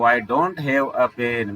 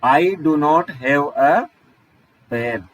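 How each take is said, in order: First: 'Do not' is merged into one syllable. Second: 'Do' and 'not' are said as separate words. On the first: "मैंने उसका contraction बोल दिया था।" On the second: "इसको अलग अलग ऐसे ही बोलते हैं"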